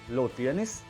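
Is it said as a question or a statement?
question. It is said with a questioning tune. The speaker asks whether the listener has it. "just ask it in a questioning tone"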